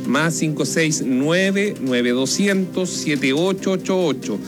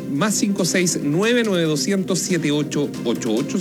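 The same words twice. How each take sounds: First: The number is read at a slower pace. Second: The number is read at a quicker pace.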